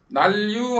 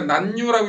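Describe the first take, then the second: First: The middle consonant assimilates into an l sound. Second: The middle consonant is a plain n sound. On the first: The speaker calls it right. "자음동화 해야 된다고" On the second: The speaker calls it wrong. "난류라고 읽는 게 아니라"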